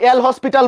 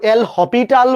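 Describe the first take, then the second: First: Said as 'el hospital', with an s sound. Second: Said as 'el hopital', with no s sound. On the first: "কেউ এল হসপিটাল বলে" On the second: "কেউ কেউ এল হপিটাল বলে"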